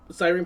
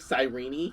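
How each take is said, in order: First: The name sounds like the word siren. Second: The name does not sound like siren. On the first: This is how one expects the name to be said. The speaker calls it wrong. "pronunciation expectation" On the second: This is how the name is actually said. The speaker calls it right. "Cyrene pronunciation is reality"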